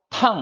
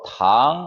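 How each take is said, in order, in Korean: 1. 음높이가 높은 데서 낮게 급하게 떨어집니다. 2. 음높이가 중간에서 높게 올라갑니다. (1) "마지막으로 탕 하면은" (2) "이성으로 탕 하게 되면"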